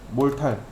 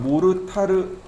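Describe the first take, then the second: First: It is said in two syllables, with final consonants. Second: It is said in four syllables, with added vowels. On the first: This is the English form of the word. "영어로 몰탈이라고 합니다" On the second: This is the form used by workers on site. "현장 가면 모르타르 이렇게 부릅니다"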